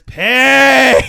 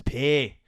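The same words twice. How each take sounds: First: Put-on Scottish accent scream. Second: Put-on "Pay" in Scottish accent at talking volume. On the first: Scottish customer to confused worker, screamed Scottish "Pay". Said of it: "this Scottish lady walks up to me". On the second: Scottish customer finally repeats "Pay" in measured Scottish accent. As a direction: say "Pay" unshouted, with a Scottish vowel. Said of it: "I'm gonna say it".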